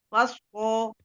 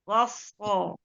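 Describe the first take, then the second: First: The lips push forward into a rounded shape. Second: The lips stay relaxed without rounding. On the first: The speaker calls it wrong. "jangan begini" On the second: The speaker calls it right. "bibirnya jangan ikut-ikutan"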